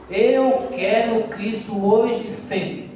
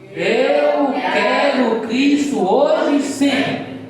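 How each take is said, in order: First: It is said at normal volume. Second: It is said in a very loud voice.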